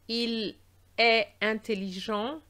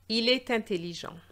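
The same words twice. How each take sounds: First: The T of est is not pronounced. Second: The T of est links into intelligent. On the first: The speaker calls it wrong. "This is a common mistake I hear" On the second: The speaker calls it right. "there should be a liaison between the T of est and the vowel of the adjective"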